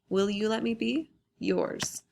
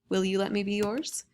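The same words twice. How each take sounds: First: There is a pause between be and yours. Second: Be and yours run on without a pause. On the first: The writer asks to be left alone. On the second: The writer asks to belong to the addressee.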